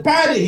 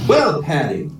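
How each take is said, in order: First: Put-on high-pitched cry of outrage in Irish accent; hammed-up angry Irishman; storming angry. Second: Easy, level Irish brogue; Irish accent. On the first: Paddy storms in on his mate, mock angry. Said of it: "Paddy stormed into the house". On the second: Acted. Paddy calmly answers his angry mate, Irish accent. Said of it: "try out my Irish accent".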